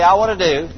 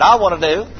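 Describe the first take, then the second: First: Said in the usual way. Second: Firmer and louder, with conviction; say it like you mean it. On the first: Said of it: "Everybody say". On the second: Shown as a demonstration. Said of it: "say it like you mean it".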